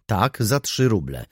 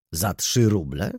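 First: "Tak, za trzy ruble" slow, falling at the end; firm confirmation. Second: "Za trzy ruble?" drawn out slowly as a question; incredulous question. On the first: Seller answers the baroness, "trzy ruble" firmly confirmed. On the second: Baroness challenges the seller on "trzy ruble", questioning. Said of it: "spytała baronowa". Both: A narrator's reading.

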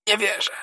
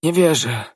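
First: Much higher but softer, slurred; a final fading mumble; last babbled words. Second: Higher, slurred denial; babbled denial. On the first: Dying soldier's last breath, slurred mumble. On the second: Dying soldier refusing to believe, babbling. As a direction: mumble it as life slips away. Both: A narrator's reading. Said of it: "wybełkotał żołnierz".

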